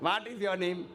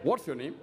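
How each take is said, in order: First: Lower, mock South Indian English; South Indian accent. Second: Low-pitched English accent; Englishman's accent. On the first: Englishman mocking that type of English, in South Indian accent. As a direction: mimic the South Indian accent, a little low. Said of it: "What type of English is this". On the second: Englishman correcting the question, in English accent. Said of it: "An Englishman will say". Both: Shown as a demonstration.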